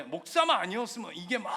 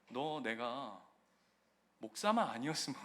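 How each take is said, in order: First: "목사만 아니었으면" shouted louder, 목사만 rising; rising anger. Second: Said in the usual way. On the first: Retold or imitated. Pastor voicing his inner rage at the landlord, shouted. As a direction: let the rage burst out on 목사만. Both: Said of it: "이게 막 올라오는 거예요".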